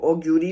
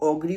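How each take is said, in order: First: The g is followed by a 'yoo' sound. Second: The g is followed directly by 'ree'. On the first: "कुछ लोग इसको ऑग्यूरी भी बोलते हैं" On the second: "कुछ लोग इसको ऑगरी भी बोलते हैं"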